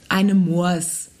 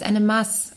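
First: The last word sounds like "Moors". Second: The last word sounds like "Mass". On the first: This is how outsiders order the beer. The speaker calls it wrong. "Das heißt ja nicht eine Moors" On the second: This is how locals order the beer. The speaker calls it right. "das heißt eine Maß"

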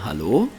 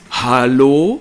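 First: The greeting is said in a warm, charming way. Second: The greeting is said in an indignant, outraged way. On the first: You are nice and attractive. "Man könnte es charmant sagen" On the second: What on earth are you doing? "dieses Empörungshallo"

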